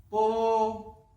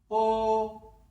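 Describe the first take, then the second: First: The syllable is said in the first tone. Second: The syllable is said in the first tone.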